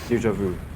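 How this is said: It is said with an English-speaking accent. The speaker calls it wrong. "I say it with broken accent from overseas"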